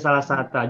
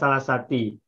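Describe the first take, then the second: First: The second word ends in the vowel a. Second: The second word ends in the vowel i. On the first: The speaker calls it right. "tapi salah sata" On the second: The speaker calls it wrong. "Juga bukan salah sati"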